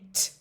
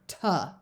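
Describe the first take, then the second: First: A crisp t sound with no vowel after. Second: A t sound followed by an extra uh vowel. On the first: The speaker calls it right. "Make sure you're saying t" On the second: The speaker calls it wrong. "and not tuh"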